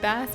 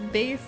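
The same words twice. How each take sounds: First: The vowel rhymes with mass. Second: The vowel rhymes with face. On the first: It names the fish. "when you're talking about a fish" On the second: It names the low musical sound. "when it's talking about music"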